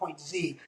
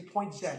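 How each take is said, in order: First: The letter name is said the American way. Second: The letter name is said the Canadian way. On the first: "not point Z" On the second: "We're Canadian here, so we're going to say point Z"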